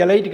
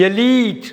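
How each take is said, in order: First: எலைட் said 'e-LITE'; wrong 'lie' pronunciation. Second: எலீட் said 'e-LEET' with long ee; correct long-ee pronunciation. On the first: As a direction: give எலைட் the vowel of 'light'. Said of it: "எலைட் கிடையாது". (எலைட் - 'லை' என்ற தவறான ஒலி) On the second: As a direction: land on a long 'lee' in எலீட். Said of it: "எலீட்னு படிக்கணும்". (எலீட் - 'லீ' நெடில் உச்சரிப்பு) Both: Shown as a demonstration.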